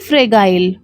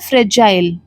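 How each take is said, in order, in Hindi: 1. बीच का व्यंजन एक कठोर 'g' ध्वनि है। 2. बीच का व्यंजन एक नरम 'j' ध्वनि है। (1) "ना कि फ्रेगाइल" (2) "इसका करेक्ट प्रोनाउंसिएशन होता है फ्रेजाइल"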